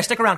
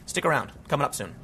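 First: Said in the usual way. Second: Quiet sign-off. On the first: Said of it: "first sign-off take". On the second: Shown as a demonstration. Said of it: "repeat of sign-off, softer".

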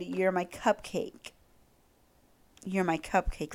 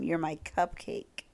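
First: Soft swoony quote. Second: Softer, slow "You're my cupcake"; repeat it softer. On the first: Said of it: "He said". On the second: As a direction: savour "cupcake" quietly. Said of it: "Let me say that one more time". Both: Retold or imitated.

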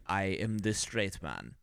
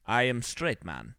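First: Low, slow mock Russian accent; bad Russian accent. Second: Slow mock Russian accent. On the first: Mocking the actor as too straight, bad Russian accent. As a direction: put on a heavy, slow Russian accent, softly. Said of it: "he has the terrible Russian accent". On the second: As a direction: echo it slowly in clichéd Russian English. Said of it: "he would say".

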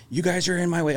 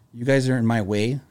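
First: Higher, mildly heated retort; a touch of road rage; mock angry complaint. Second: Toned-down grumble; same words, temper coming down; a hint of a settling driver; calmer complaint. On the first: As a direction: imitate the irritated driver, lightly. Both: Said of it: "his tone started to go down".

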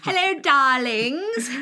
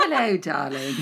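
First: Slow, louder, husky-toned greeting; femme fatale. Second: Femme fatale. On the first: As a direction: draw it out like a film siren. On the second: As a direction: purr it like a screen siren. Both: Acted. Sultry greeting game.

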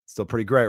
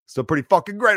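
First: Said in the usual way. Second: Higher and louder on the repeat, pushing the upbeat line; emphatic repeat. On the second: Retold or imitated. Bartender cheering up a regular, emphatic and louder. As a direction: pump it up, lean hard on great.

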